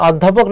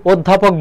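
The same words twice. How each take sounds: First: অধ্যাপক said with open ɔ, 'ɔddhapok'; স্বাভাবিক অ উচ্চারণ. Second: অধ্যাপক said 'oddhapok', closed o; সংবৃত অ উচ্চারণ. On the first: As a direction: keep the first vowel of অধ্যাপক open. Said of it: "অধ্যাপক নাকি অধ্যাপক বলি". (অধ্যাপক-এর শুরুতে খোলা অ) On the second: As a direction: round the first vowel of অধ্যাপক into o. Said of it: "ও এর মতো হয়". (অধ্যাপক-এর শুরুতে ও: 'ওদ্ধাপক') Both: Shown as a demonstration.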